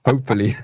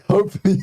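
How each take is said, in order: First: Said in the usual way. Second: The word Hopefully squeaked up high with a laugh; teasing high-pitched hope; high sing-song hopefully. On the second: Pretend. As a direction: tease it in a high, laughing lilt.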